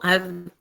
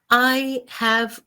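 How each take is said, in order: First: The two words merge into one short syllable. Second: Both words are said fully and separately.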